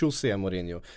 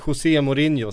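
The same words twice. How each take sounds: First: The name is pronounced with Portuguese sounds. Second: The name is pronounced with Spanish sounds. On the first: The speaker calls it right. "sen heter" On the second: The speaker calls it wrong. "vi uttalar portugisiska namn med spanskt uttal. Så vi säger"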